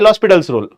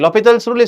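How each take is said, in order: First: The name starts with a separate 'el' then 'hospital'. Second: The name starts with a blended 'lo' and no h. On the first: This follows how the name is written. "Actually ಇದು ಬಂದು ಎಲ್ ಹಾಸ್ಪಿಟಲ್ಸ್ rule" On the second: This is how the name is pronounced. "ಲೊಪಿಟಲ್ ಅಂತ ಹೇಳ್ತಾರೆ"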